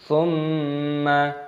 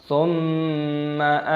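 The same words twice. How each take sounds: No difference in how they are said.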